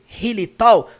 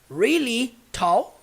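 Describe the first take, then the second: First: The initial R sounds like a Portuguese R. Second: The initial R sounds like a caipira-style R. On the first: The speaker calls it wrong. "desse jeito aqui, ó, que eu escrevi, really tall, não é assim que eu falo" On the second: The speaker calls it right. "Eu falo como?"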